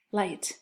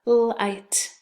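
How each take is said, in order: First: Said in the usual way. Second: "Light" split into a held l, then long i and t; tapped out. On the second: Shown as a demonstration. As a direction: separate the sounds in "Light". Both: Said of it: "let's tap it out".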